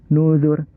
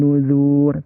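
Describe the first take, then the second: First: The vowel of zu is kept short. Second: The vowel of zu is held long. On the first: The speaker calls it right. "tapi nuzur karena pendek" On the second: The speaker calls it wrong. "Bukan nuzur"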